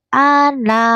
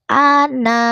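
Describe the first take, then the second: No difference in how they are said.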